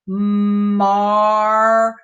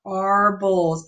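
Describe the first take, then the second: First: "marbles" drawn out slowly, leaning on the AR; slow phonics demo; stressed R sound. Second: Said in the usual way. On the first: Shown as a demonstration. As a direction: stretch the AR in "marbles". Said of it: "we're gonna say marbles". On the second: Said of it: "we're gonna read that mar".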